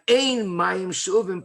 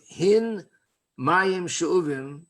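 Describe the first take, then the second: First: The first word begins with a vowel. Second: The first word begins with an h sound. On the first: There is no drawn water. "if the hey sounds like an aleph" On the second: A certain measure of drawn water. "they would want to pronounce the hey sound"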